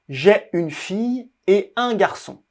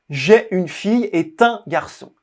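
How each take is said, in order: First: Et and un are said without linking. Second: Et links into un with a T sound. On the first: The speaker calls it right. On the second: The speaker calls it wrong.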